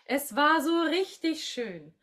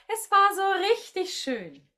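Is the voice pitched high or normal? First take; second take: normal; high. First: The voice is at a normal pitch. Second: The voice is pitched high, cartoon-like. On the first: "Gerne mit mir sprechen" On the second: "von der Stimmlage jetzt auch mal so ein bisschen in die Höhe gehen. Es darf ja so ein bisschen Disney-like klingen"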